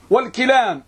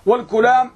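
First: والكلام with a short "i" after the k, wal-kilaam; teacher's model of والكلام with kaf as "ki"; kasra on kaf. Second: والكلام with a short "u" after the k, wal-kulaam; teacher's model of والكلام with kaf as "ku"; damma on kaf. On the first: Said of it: "بكسر الكاف". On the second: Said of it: "بضم الكاف". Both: Shown as a demonstration.

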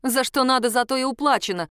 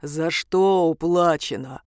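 First: Higher, indignant retort; affronted comeback. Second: Low, slow, deep demon voice; deep, drawn-out creature's query; booming bass. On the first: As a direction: snap back in irritation, pitched up. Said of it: "возмутилась я". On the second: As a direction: rumble the question out slowly in a bass. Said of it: "кто-то пробасил". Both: A narrator's reading.

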